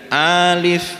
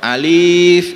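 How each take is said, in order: First: The first vowel is held long. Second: The second vowel is held long. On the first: "berarti a-nya yang panjang" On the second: "berarti li-nya yang panjang"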